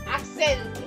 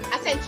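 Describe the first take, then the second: First: The word is said slowly with a long, relaxed vowel. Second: The word is said quickly with slight stress. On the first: "as if it's being relaxed" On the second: "when you start speaking it faster"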